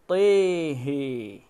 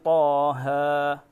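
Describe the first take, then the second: First: Both vowels lean toward 'e'. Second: Both vowels are plain open 'a' sounds. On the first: "mengimalahkan huruf ta dan huruf ha-nya" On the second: "Biasanya begini"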